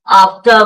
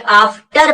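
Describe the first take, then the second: First: आफ्टर stopping at "tuh"; आफ्टर with an open vowel ending; silent R. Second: आफ्टर with the final R fully sounded; overdone R closing आफ्टर; wrong full R. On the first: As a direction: cut आफ्टर off before the R. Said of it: "बोल करके आप रुक ले". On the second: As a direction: pronounce all of आफ्टर, ending "tar". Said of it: "आफ्टर पूरा नहीं बोलना है". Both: Shown as a demonstration.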